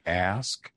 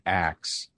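First: Said in the usual way. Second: "axe" said with the k before the s; swapped consonants. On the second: Shown as a demonstration. Linguist contrasting two pronunciations for listeners, "axe" with ks ending. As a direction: say "axe" as the variant of ask, ending in ks. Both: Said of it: "difference in pronunciation between ask and".

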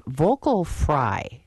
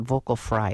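First: Slow, creaky drawn-out vocal fry; vocal fry demo. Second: Said in the usual way. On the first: Shown as a demonstration. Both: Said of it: "explain what vocal fry is".

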